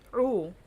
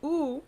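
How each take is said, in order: First: The vowel is pushed from the back of the throat. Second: The vowel is plain, without throat emphasis. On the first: "you're going to make it oo" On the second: "You have oo"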